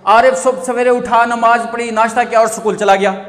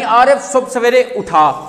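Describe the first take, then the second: First: It is read straight through without pausing. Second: There is a clear pause after उठा.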